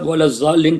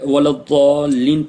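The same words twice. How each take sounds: First: The second word begins with a z sound. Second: The second word begins with an emphatic d sound. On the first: The speaker calls it wrong. "ये गलत होगा" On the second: The speaker calls it right. "अरबी में दाद है, वाला ज़ालिन पढ़ना चाहिए"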